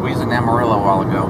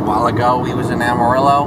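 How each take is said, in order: First: "We was in Amarillo" in a hammed-up Texas accent; mock Southern accent. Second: Put-on Southern accent. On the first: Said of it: "how to speak like you're from down here". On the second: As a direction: say it like a Texan. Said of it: "I'm gonna talk like this".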